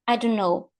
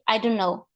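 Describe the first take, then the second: Both takes have the same delivery.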